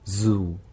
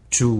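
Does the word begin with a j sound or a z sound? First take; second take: z sound; j sound. First: The word begins with a buzzing z sound. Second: The word begins with a j sound. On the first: The speaker calls it right. "U 발음 길게 해주시면 되고요" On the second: The speaker calls it wrong. "잘못 발음하면 그냥 주"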